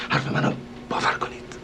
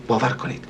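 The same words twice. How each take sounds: First: Soft whisper, confidential; whispered plea. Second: Said in the usual way. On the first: Acted. Host quietly begging the lady to trust him, whispered. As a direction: whisper it as a secret promise.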